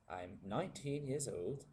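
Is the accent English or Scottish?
English. It is said in an English London accent.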